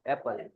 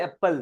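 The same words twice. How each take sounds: First: "એપલ" softer and lower, light p; British "એપલ", lightly finished; British pronunciation. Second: "એપલ" with stress on the p; Indian pronunciation. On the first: Retold or imitated. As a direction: say "એપલ" softly without leaning on the p. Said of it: "ઈ હું બોલે?". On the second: Shown as a demonstration. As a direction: say "એપલ" as ep-pal. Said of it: "આપણે હું બોલીએ?".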